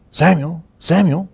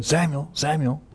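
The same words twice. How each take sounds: First: Higher, carrying call of the name. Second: Higher but softer call of the name. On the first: God calling the sleeping boy Samuel, a high carrying call. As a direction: call the boy's name from afar, lifted high. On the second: God calling Samuel a third time, soft and higher. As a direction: call the name gently, almost hushed. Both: Retold or imitated.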